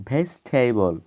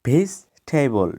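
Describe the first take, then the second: No difference in how they are said.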